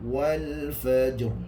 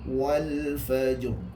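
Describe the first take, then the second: Both takes have the same delivery.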